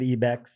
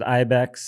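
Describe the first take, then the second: First: The name is given a Spanish-style pronunciation. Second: The name is given an English-style pronunciation. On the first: This is how a Latin speaker would say it. "if you're Latin, you pr- pronounce it Ibex"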